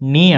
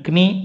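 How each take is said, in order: First: No k sound is heard at the start. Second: A k sound is heard at the start. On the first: The speaker calls it right. "నీ అంటారు. కే పలకూడదు" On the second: The speaker calls it wrong. "క్నీ అనరు"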